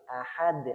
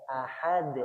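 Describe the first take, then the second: The two takes are said the same way.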